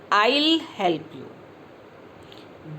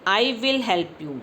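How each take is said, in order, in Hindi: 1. दोनों शब्द एक ही अक्षर में जुड़ जाते हैं। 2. दोनों शब्द पूरे बोले जाते हैं।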